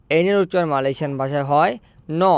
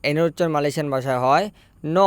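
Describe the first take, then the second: No difference in how they are said.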